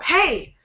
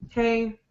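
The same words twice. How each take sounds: First: Short and rising, with an angry tone. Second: Flat and unchanging, with a bored tone. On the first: "that rising, short, angry sound when your voice goes up" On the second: "when your voice maybe sounds bored ... It's kind of flat, doesn't change"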